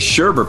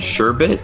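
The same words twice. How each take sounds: First: The second syllable has an added R sound. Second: The second syllable has no R sound. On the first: This is how the word is usually said. "I say sherbet, but there's no second R" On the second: This matches the written word. "so is it sherbet?"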